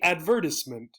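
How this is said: It is said with a British pronunciation. "In the United Kingdom and some other places"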